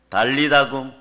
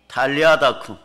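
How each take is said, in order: First: It begins with a soft unaspirated 'd' sound. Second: It begins with a strong aspirated 't' sound. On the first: This is the familiar Korean rendering. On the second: This is the original pronunciation.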